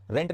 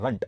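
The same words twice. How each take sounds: First: रेंट with an "e" vowel; wrong vowel. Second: रंट with a short "uh" vowel; correct pronunciation. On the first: Teacher shows what not to say, रेंट with an "e" sound. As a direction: say रेंट like English "rent". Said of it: "रेंट नहीं". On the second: Teacher corrects the vowel for students, रंट said with short "uh". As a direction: say रंट as "runt". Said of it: "रंट, रेंट नहीं". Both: Shown as a demonstration.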